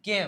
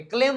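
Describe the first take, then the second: First: "calm" said with no l; silent l. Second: "ક્લેમ" with an l right after the k; l wrongly sounded. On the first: Teacher shows learners the right word, silent l. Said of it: "L silent હે". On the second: Teacher warns learners off the misreading, l sounded. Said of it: "ક્લેમ ન વચાય". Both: Shown as a demonstration.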